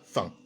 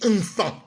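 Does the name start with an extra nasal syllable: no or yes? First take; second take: no; yes. First: The name starts directly with the f sound. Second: The name starts with a nasal syllable. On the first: The speaker calls it wrong. "je ne dis pas fan" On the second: The speaker calls it right. "Je dis enfant"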